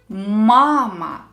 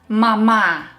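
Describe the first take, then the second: First: The stress is on the first syllable. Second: The stress is on the second syllable. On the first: The speaker calls it right. "Here the first syllable is stressed" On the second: The speaker calls it wrong. "Not the second syllable"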